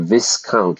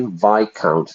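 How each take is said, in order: First: The S in the word is pronounced. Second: The S in the word is silent. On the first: The speaker calls it wrong. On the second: The speaker calls it right.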